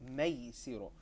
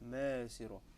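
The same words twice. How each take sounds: First: The ay sound is spread wide. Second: The ay sound is narrow, not spread. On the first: The speaker calls it right. "my mouth is spreading" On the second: The speaker calls it wrong. "we don't say maysiro"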